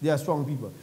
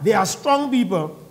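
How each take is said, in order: First: Low, soft aside on "They are strong people". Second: "strong" stressed in "they are strong people"; emphatic main point. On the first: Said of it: "That's just a by the way". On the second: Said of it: "It wasn't that they are strong people". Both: Shown as a demonstration.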